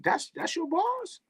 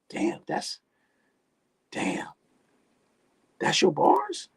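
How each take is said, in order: First: High, soft disbelief; quiet, high-pitched mock disbelief; incredulous. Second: Squeaky high disbelief; mocking, high-pitched "that's your bars?"; incredulous. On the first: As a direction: ask it again, higher and hushed. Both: Real, not acted. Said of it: "I heard more profanity than words".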